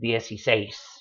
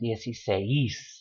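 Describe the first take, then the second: First: The final seis is said as one syllable. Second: The stress is on the e, splitting seis apart. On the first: The speaker calls it right. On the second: The speaker calls it wrong.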